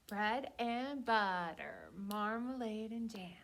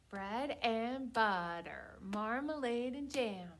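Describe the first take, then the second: No difference in how they are said.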